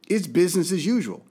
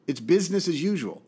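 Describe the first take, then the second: No difference in how they are said.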